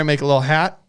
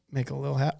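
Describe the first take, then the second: First: Said in the usual way. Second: "Make a little hat" repeated much softer, almost to himself; quiet repeat. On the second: Shown as a demonstration. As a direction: echo "hat" quietly under the breath.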